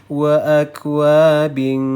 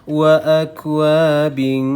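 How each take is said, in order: The two takes are said the same way.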